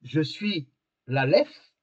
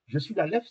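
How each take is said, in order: First: Very slow, each word laid down; slow solemn quote. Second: Said in the usual way. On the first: Shown as a demonstration. Teacher quoting Christ to the class, very slow and solemn. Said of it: "quand Christ dit".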